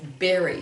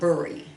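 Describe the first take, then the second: First: The vowel has its usual sound, not the spelling. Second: The vowel follows the spelling, not the usual sound. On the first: The speaker calls it right. "it's bury is how we pronounce it" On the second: The speaker calls it wrong. "this word is not bury"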